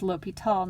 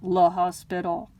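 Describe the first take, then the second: First: The name has no s sound in it. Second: The name has an s sound in it. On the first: The speaker calls it right. "pronounce it as L'Hôpital" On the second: The speaker calls it wrong. "not Le Hospital"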